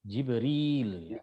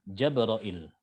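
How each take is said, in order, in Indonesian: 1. Diawali dengan 'ji' dan diakhiri dengan '-ril'. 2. Diawali dengan 'ja' dan diakhiri dengan '-ra-il'. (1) "Kalau Hafs bacanya gimana? Jibril ya" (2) "ini lafadznya Syu'bah sama dengan lafadznya Imam Hamzah"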